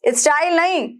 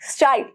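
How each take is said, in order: First: A vowel is heard between s and t. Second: The s joins the t with no vowel. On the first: The speaker calls it wrong. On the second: The speaker calls it right. "आधा स है"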